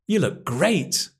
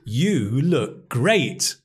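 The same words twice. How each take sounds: First: 'You' is unstressed and reduced to 'ya'. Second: Every word is stressed, with 'you' said in full. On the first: "the weak form of you is ya" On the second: "We're emphasizing every word"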